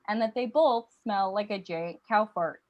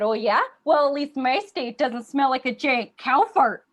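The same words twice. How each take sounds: First: Said in the usual way. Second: Louder, indignant sibling retort; Minnesota. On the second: Acted. Minnesota firing back at little sister Wisconsin, loud mock-indignant retort. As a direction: hit back with a loud playground insult. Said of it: "And Minnesota said".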